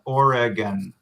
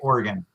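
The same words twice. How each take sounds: First: It is said slowly with every syllable clear. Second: It is said quickly, sounding like 'organ'. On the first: "if I was saying it slowly and, and clearly and trying to emphasize the pronunciation" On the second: "in just natural speech, I probably say Oregon more. Um, so it sounds like, you know, an organ"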